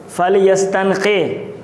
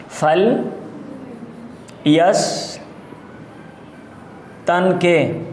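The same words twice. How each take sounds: First: Said in the usual way. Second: فل یستنقے in drawn-out pieces with very long pauses; slow dictation. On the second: Shown as a demonstration. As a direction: dictate فل یستنقے syllable group by syllable group. Teacher dictates the word in pieces.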